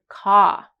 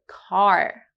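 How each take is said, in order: First: It is said in British English without R. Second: It is said in American English with R.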